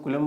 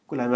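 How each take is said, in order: First: कूलम with a short second vowel; variant pronunciation. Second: कूलाम with a long "aa" in the second syllable; preferred pronunciation. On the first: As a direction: say कूलम as some people do, short "lam" ending. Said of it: "कुछ लोग कूलम बोल देते हैं". (कूलम, छोटे "अ" वाला उच्चारण) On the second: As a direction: say कूलाम with an open "laam" ending. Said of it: "कूलाम याद रखिए". (कूलाम, लंबे "आ" वाला उच्चारण) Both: Shown as a demonstration.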